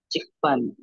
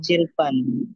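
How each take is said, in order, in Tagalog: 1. Nagtatapos sa tunog k ang unang pantig. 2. Nagtatapos sa tunog l ang unang pantig.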